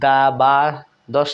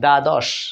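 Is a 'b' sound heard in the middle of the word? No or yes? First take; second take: yes; no. First: It is said with a b sound in it. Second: It is said with no b sound in it. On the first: The speaker calls it wrong. "আমরা কিন্তু দা বা দশ এরকম কেমন হয় না উচ্চারণ" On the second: The speaker calls it right. "দ্বাদশ মানে ব ফলা এখানেও উচ্চারিত হচ্ছে না"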